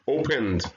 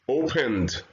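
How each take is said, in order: The two takes are said the same way.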